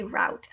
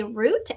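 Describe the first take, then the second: First: "route" with an ow vowel; route as "rout". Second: "root" with a long double-O; route as "root". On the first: Teacher showing the other way people say it, "route" with ow. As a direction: say "route" to rhyme with out. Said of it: "some people say route. Either way is correct". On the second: Teacher showing one way people say it, "root" with ooh. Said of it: "Some people say root, as in". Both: Shown as a demonstration.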